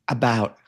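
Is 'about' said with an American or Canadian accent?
American. The word is said with an American vowel. The speaker calls it right. "was constantly corrected on about"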